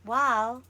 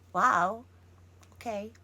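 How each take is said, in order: First: It sounds coy and playfully teasing. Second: It sounds let down and deflated. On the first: The speaker is showing romantic interest. "Ako naman, flirty" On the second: The speaker expected something better.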